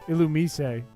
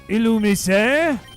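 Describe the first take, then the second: First: It is said in a plain English accent. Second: It is said in a French accent.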